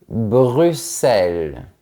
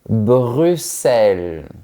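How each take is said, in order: No difference in how they are said.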